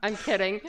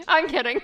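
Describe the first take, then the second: First: Said in the usual way. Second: Loud laughing take-back. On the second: Real, not acted. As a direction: laugh it out, much louder. Teasing then taking it back.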